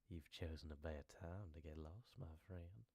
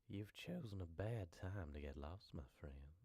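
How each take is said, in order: First: The voice sounds creepy and menacing. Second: The same.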